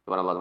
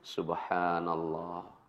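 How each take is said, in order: First: It is said fast, mumbled like gargling. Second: It is said slowly and calmly.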